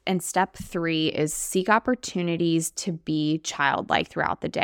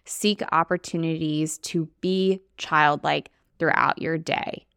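First: Said in the usual way. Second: Slow, with the word be leaned on and held; stress on be. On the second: Shown as a demonstration. Coach showing listeners where the stress goes, be leaned on. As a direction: give be the weight, slowly. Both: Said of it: "I'm gonna have an emphasis on the word be".

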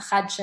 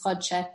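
First: Chadshe said with an a sound, as the wrong form; wrong reading. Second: Chodshe said with a short o; right reading. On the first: Teacher showing the wrong reading of chadshe. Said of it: "It's not chadshe". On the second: Teacher correcting chadshe to chodshe. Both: Shown as a demonstration.

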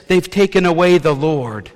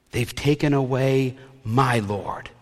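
First: Said in the usual way. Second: Slow, lean into "my" as personal: "my Lord"; "my Lord" said slowly, "my" held tender and personal; stress on my. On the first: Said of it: "to the disciples, she says". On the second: Shown as a demonstration. Mary to the angels, slowly leaning on "my" in "my Lord". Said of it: "not as the Lord, but my Lord".

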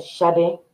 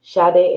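First: Lightly imitated African accent on "Sade". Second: Said in the usual way. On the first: Daughter quoting her dad's advice, light African accent. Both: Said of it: "in his African voice".

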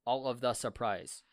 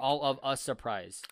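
First: "the" set apart before "surprise"; stress on THE. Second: "a" set apart before "surprise", a bit louder; stress on A. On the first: Testing the grammar on friends, stress on "the". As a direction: pick out "the" in the phrase. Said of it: "So when you say". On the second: Offering friends the other version, stress on "a". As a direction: pick out "a" as the alternative. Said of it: "Sudden is supposed to be surprise". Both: Shown as a demonstration.

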